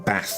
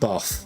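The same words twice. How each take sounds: First: It is said in a northern English accent. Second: It is said in a southern English accent. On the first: "rather than bath" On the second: "we say path and bath"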